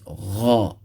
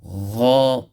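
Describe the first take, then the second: First: It starts with a soft throaty gh sound. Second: The same.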